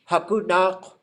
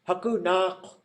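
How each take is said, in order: First: The middle consonant is an N sound. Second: The same.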